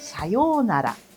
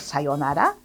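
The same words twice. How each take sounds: First: The vowel in 'yo' is lengthened. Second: The vowel in 'yo' is short. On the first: The speaker calls it right. "indica um prolongamento do som" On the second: The speaker calls it wrong. "ao invés de pronunciar"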